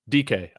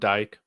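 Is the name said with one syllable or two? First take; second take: two; one. First: The name is said as two syllables. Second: The name is said as one syllable. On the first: "I believe is how you pronounced it"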